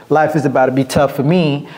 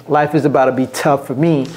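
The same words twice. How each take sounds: The two takes are said the same way.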